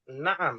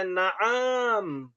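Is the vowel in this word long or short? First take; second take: short; long. First: The second vowel is kept short. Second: The second vowel is held long. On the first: It means yes. The speaker calls it right. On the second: It means a bird, not yes. The speaker calls it wrong. "Jangan dibacanya naam"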